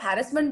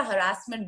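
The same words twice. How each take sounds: First: "हैरेसमेंट" with the weight on HAR; first-syllable stress. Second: "हरासमेंट" with the weight on RAAS; second-syllable stress. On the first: Teacher offering either choice, first syllable stressed in "हैरेसमेंट". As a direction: say "हैरेसमेंट" as HA-ris-ment. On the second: Teacher offering either choice, middle syllable stressed in "हरासमेंट". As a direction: say "हरासमेंट" as huh-RASS-ment. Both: Shown as a demonstration. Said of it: "दोनों ही correct है".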